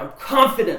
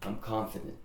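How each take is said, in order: First: It is said loudly, with conviction. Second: It is said flatly, without conviction. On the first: The speaker means it. The speaker calls it right. "say it louder, say it like you mean it" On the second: The speaker does not believe it. The speaker calls it wrong. "not feeling it"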